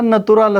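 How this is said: It is said with a Russian pronunciation.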